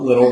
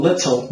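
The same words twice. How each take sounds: First: Everyday "liddle" for little; careless little. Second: LITTLE with a crisp T; fully sounded "lit-tul"; careful little. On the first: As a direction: say little casually. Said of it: "not little, like I just did". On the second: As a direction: articulate little cleanly. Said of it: "still going little". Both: Shown as a demonstration.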